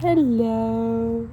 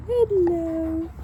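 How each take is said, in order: First: Fond greeting. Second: Much higher, sing-song pet voice. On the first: Owner greeting her two dogs lying nearby, fond and gentle. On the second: Owner cooing at her dogs, higher baby-talk hello. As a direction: coo it up high at the dogs. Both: Real, not acted.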